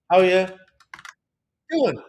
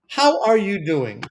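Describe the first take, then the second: First: The word are drops and you becomes ya. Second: Every word is said fully and separately. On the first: It sounds casual and everyday. The speaker calls it right. "We just say how, ya, which is short for you" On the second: It sounds formal and academic. The speaker calls it wrong. "This is the formal academic way of greeting someone"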